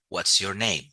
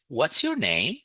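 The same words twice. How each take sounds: First: The question is said in a flat, monotone pitch. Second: The question is said with lively, varied pitch. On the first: The speaker calls it wrong. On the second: The speaker calls it right.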